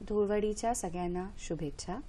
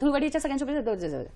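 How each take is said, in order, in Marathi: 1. वाक्य हळू गतीने बोललं आहे. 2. वाक्य जलद गतीने बोललं आहे. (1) "आता ते स्लो मध्ये जर मी त्याचा स्पीड कमी केला" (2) "आता हे जेव्हा मी फास्ट म्हणते"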